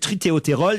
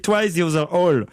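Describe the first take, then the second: First: It is read as one French-sounding word. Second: It is said as separate English words. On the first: The speaker calls it wrong. "vous prononcez mal" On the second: The speaker calls it right. "c'est marqué"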